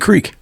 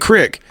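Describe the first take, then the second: First: The word has a long vowel, like creek. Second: The word has a short vowel, like crick. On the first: This is how the word is said when reading it aloud. "If I'm reading it, I say creek" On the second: This is how the word is said in everyday speech. "Like if I say it, I say crick"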